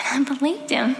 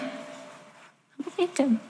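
First: Said in the usual way. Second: "believed" said slowly and softly, voice high and fragile; soft, breaking repeat. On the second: Real, not acted. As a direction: let "believed" fall away quietly, hurt.

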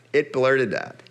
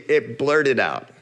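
The two takes are said the same way.

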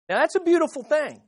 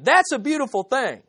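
First: Lifted praise. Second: Louder, higher That's a beautiful thing with beautiful leaned on; stress on beautiful. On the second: Preacher repeating the line to the congregation, emphatic. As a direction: say it again with more weight on beautiful. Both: Shown as a demonstration. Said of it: "Let me say that again".

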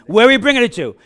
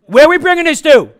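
First: Said in the usual way. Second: Much higher, louder call to the crowd; shouted question. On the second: Shown as a demonstration. Preacher calling out to the congregation, shouting. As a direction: shout it out to get the answer. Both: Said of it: "preacher drills congregation on the answer".

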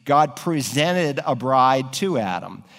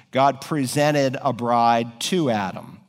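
First: God presented a bride to Adam, leaning on God, slow; slow and deliberate, lean on the word God; stress on God. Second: God presented a bride to Adam, weight on to, falling at the end; slow repeat that lands on to and falls off; stress on to. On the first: Preacher to congregation, slowly stressing God. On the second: Preacher repeating the verse, slow with a falling end on to. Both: Shown as a demonstration. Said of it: "I want you to notice now".

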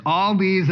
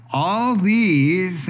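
First: Said in the usual way. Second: "All" hit higher and louder, "these" falls; stress on ALL. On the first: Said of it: "when it's all these at the front of the sentence". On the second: Shown as a demonstration. Preacher stressing "All these" to his congregation, with a punched "All". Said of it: "when it's all these at the front of the sentence, it's emphasizing".

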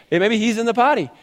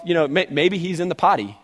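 First: Higher, teasing mock suggestion; sarcastic mocking. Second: Said in the usual way. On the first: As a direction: jab at them with fake helpfulness. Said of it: "he's sarcastic and he's jabbing him". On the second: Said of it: "Kids, he's off".

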